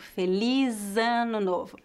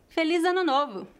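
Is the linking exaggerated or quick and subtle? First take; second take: exaggerated; quick. First: The linking is slow and exaggerated. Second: The linking is quick and subtle.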